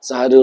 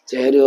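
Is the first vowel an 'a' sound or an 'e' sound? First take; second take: a sound; e sound. First: The first syllable has an 'a' vowel. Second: The first syllable has an 'e' vowel. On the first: The speaker calls it right. "সাহারি উচ্চারণটা সঠিক" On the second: The speaker calls it wrong. "সেহেরি হলো ভুল"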